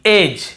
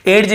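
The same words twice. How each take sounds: First: एज with J right after the vowel; silent-D pronunciation. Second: एड्स said as ed-j, hard D before J; sounded-D pronunciation. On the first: Teacher showing students the reading, एज without D. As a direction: say एज with no D sound. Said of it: "ये पढ़ रहे हैं". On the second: Teacher showing how some people read it, एड्स as ed-j. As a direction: say एड्स as "edj", D audible. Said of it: "भी पढ़ते होंगे". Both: Shown as a demonstration.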